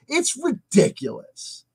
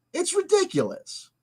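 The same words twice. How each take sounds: First: "It's ridiculous" slowed down, stress on "It's". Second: "It's ridiculous" much higher and softer. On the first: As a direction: drag out "It's ridiculous" with weight on "It's". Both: Shown as a demonstration.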